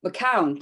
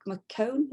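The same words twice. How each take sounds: First: "McCown" with an OW vowel, falling; confirming "McCown", ending like "down"; corrected pronunciation. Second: "McCone" ending like "cone", questioning; higher, unsure "McCone", rhyming with "bone"; tentative pronunciation. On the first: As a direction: repeat "McCown" to rhyme with "town". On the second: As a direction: say "McCone" with an OH vowel, rising as if checking. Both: Real, not acted. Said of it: "Is that how you pronounce your surname".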